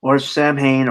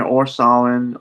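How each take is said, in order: First: "Samhain" said SAM-hayn; Samhain as spelled. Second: "Samhain" said SAH-win; Samhain the Gaelic way. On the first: Host offering another name for Halloween, "Samhain" as SAM-hayn. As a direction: pronounce both halves of "Samhain" as written, SAM-HAYN. Offers two pronunciations of one word. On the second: Host offering the other pronunciation, "Samhain" as SAH-win. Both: Shown as a demonstration.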